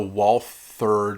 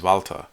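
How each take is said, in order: First: It is said the English way, with a th sound. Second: It is said the German way, with a v sound. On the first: This is an anglicized form of the name. The speaker calls it wrong. "Walther just sounds so wrong" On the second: This is the correct native form of the name. The speaker calls it right. "The correct way to say this German company's name is Walther"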